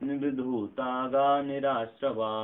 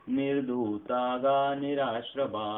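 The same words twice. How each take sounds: The two takes are said the same way.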